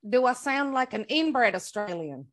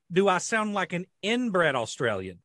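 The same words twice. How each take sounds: First: Mimicking a backwoods Australian; copied Australian accent. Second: Put-on inbred Australian; backwoods Australian accent. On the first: Co-host copying the other's sentence, mock Australian accent. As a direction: echo it in a put-on Australian accent. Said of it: "you say a sentence and let me copy you". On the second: Shown as a demonstration. Asking co-hosts to judge his accent, backwoods Australian. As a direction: ask it in a slow, mock Australian accent. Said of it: "that's Australian, but it's, like, backwoods".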